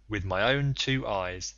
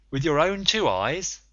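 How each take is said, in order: First: Slow, level, weight on own; calm confirmation. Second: Higher, louder, rising on two; incredulous question. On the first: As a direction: settle each word flatly, leaning on own. Conseil calmly confirms it. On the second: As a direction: press on two with doubt, voice climbing. Ned doubts Conseil's sighting. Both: A narrator's reading.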